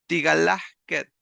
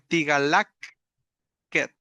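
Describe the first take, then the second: First: An h sound comes right before the ending. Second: A k sound comes right before the ending. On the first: The speaker calls it right. "cambiadas estas K por una J" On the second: The speaker calls it wrong. "esa doble K no suena bien"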